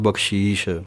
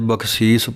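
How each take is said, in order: First: The word is said with an 'sh' sound. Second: The word is said with a plain 's' sound. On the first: The speaker calls it wrong. "ਕਈ ਸੱਸੇ ਦੇ ਪੈਰ ਦੇ ਵਿੱਚ ਬਿੰਦੀ ਕੋਲੋਂ ਹੀ ਲਗਾ ਦਿੰਦੇ ਹਨ" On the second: The speaker calls it right. "ਬਖਸੀਸ ਪਾਠ ਪੜ੍ਹਨਾ ਹੈ"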